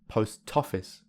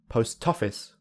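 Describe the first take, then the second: The two takes are said the same way.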